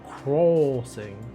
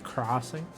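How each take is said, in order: First: The first vowel is a rounded 'oh' sound. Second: The first vowel is an open 'ah' sound. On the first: This is an overcorrected attempt at a British accent. "it's more like an oh crossing" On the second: This is the normal American pronunciation. "in an American accent, it's more of an A vowel"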